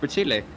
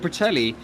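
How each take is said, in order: First: The name ends with a 'tile' sound. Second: The name ends with a 'telly' sound. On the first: The speaker calls it right. "the right pronunciation of Bertile" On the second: The speaker calls it wrong. "we've called him Bertelli"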